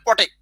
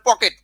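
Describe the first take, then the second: First: The t sound comes before the k sound. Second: The k sound comes before the t sound. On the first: "উচ্চারণের অসাবধানতার কারণে" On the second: "আমরা বলে পকেট"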